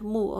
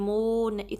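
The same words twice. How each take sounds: First: The vowel is held for one short count. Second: The vowel is stretched out long. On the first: The speaker calls it right. "Just one count" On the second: The speaker calls it wrong. "बिल्कुल स्ट्रेच नहीं करना, यानी कि मुंह इतना नहीं"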